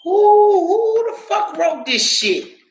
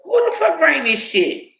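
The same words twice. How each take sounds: First: Shrieking disbelief. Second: Incredulous outcry. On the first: Telling Stephanie about the nursing book, shrieking outrage. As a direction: scream it in outrage. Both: Retold or imitated. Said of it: "I was like".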